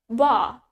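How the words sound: It is said in a British accent. "In British, we pronounce it as"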